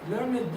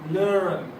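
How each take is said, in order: First: The ending is said as an extra syllable. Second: The ending is said without an extra syllable. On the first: The speaker calls it wrong. "not learn it. Learn it, this is Egyptian" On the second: The speaker calls it right. "الإي ما بتتنطقش"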